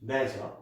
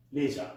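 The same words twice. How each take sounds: First: LEISURE as "lezher", short e; British-style LEISURE, rhyming with pleasure; short, open first vowel in LEISURE; British pronunciation. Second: LEISURE as "leezher", long ee; American-style LEISURE, starting like "lee"; long ee in the first syllable of LEISURE; American pronunciation. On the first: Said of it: "in British English". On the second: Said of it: "in the U S A pronunciation". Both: Shown as a demonstration.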